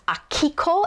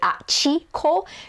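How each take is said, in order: First: The middle syllable is said as ki. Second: The middle syllable is said as chi. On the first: This is the standard pronunciation. "my host sister's name was Akiko" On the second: This is a rural regional accent. "the grandma pronounced it Achiko"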